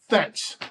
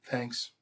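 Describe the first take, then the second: First: It sounds intense and exasperated. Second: It sounds only slightly annoyed. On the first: The sender is furious about being left alone. "just ratchet that intensity up a little bit because how I heard it" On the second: The sender is a little put out, nothing more. "Maybe annoyed, but not anywhere near what the heck I was thinking"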